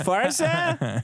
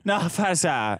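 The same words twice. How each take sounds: First: "Farza" with a hard R, as a high question; puzzled, higher-pitched "Farza?" pronouncing the R; misheard name. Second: "Farza" without the R, said like "FAH-zah"; retold correction, "Farza" with the R dropped; correcting the name. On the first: Retold or imitated. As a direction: ask "Farza?" with a clear AR in the first syllable. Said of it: "And she goes, "No, Farza". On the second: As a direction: correct it to "Farza" with open A vowels and no R. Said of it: "And she goes".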